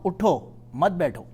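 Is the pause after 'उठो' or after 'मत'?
after उठो. The pause comes after 'उठो', meaning stand up.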